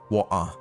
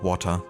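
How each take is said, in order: First: The T sound in the middle is dropped. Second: The T sound in the middle is pronounced. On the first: "they don't uh, pronounce the T, like water" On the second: "instead of water"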